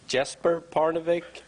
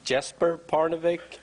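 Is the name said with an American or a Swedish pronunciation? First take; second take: American; American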